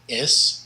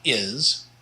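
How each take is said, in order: First: The word ends with a hissing S sound. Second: The word ends with a buzzing Z sound. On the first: The speaker calls it right. "the is is an S sound" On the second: The speaker calls it wrong. "and not a Z sound"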